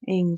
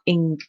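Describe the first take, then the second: First: The ending is light with a soft g. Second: The ending is strong with a hard g. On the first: The speaker calls it right. "just a slight ing at the end" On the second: The speaker calls it wrong. "not ing"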